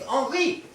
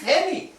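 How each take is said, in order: First: The name is pronounced the French way. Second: The name is pronounced the English way. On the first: "My name is Henri" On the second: "to pronounce it in English, it is Henry"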